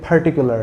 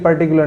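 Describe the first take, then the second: First: The first p has a strong puff of air. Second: The first p has no puff of air. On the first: The speaker calls it right. "ये पर्टिकुलर है" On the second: The speaker calls it wrong. "ये पर्टिकुलर नहीं"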